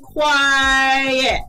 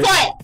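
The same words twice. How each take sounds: First: The word is drawn out slowly. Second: The word is said quickly. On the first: The speaker calls it right. "It should have been quiet" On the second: The speaker calls it wrong. "he was saying it too quick"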